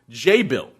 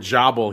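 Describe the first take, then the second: First: The first syllable sounds like 'jay'. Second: The first syllable sounds like 'jaw'. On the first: The speaker calls it right. "it's actually pronounced J-Bill" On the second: The speaker calls it wrong. "I said before Jobble"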